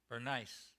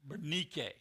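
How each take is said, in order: First: The name is said the usual English way. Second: The name is said the Greek way. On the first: "I still want to say Bernice" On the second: "that's a Greek pronunciation"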